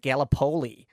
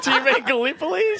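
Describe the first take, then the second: First: "Gallipoli" said gal-uh-POE-lee; American mispronunciation. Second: "Gallipoli" said guh-LIP-uh-lee, high and loud; high, laughing question with "Gallipoli" stressed on LIP; incredulous correction. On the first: Roommate reading a quiz, mispronouncing Gallipoli as gal-uh-POE-lee. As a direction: stress the third syllable of "Gallipoli", as POE. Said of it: "she's American". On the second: Housemates correcting the American roommate, incredulous. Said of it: "And we're like". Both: Retold or imitated.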